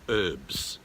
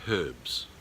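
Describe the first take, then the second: First: It is said the American way. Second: It is said the non-American way. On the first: "a lot of Americans say herbs" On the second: "I did say herbs"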